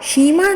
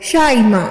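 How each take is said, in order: First: The first syllable has an 'ee' vowel. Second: The first syllable has an 'a' vowel. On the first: The speaker calls it wrong. "शीमा नहीं" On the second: The speaker calls it right. "इसको जबर के साथ पढ़ेंगे"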